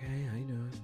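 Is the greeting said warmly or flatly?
flatly. The greeting is said flatly and without interest.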